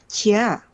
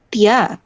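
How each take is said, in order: First: The syllable starts with a soft ts-like sound. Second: The syllable starts with a plain hard t. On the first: The speaker calls it right. "tapi cia" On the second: The speaker calls it wrong. "dia kan nggak dibaca tia"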